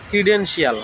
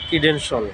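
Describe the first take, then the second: First: The ending is said as two syllables, shee-ul. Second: The ending is said as one syllable, shul. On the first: The speaker calls it wrong. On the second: The speaker calls it right.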